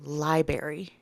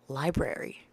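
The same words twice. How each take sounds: First: The second r sound is dropped. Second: The second r sound is kept. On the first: The speaker calls it wrong. "when someone says a library instead of library" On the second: The speaker calls it right. "there's an R, another R in there"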